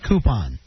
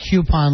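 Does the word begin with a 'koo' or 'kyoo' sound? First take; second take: koo; kyoo. First: The word begins with a plain 'koo' sound. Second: The word begins with a 'kyoo' sound. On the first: "a lot of people say coupon" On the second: "I say coupon like a cue ball"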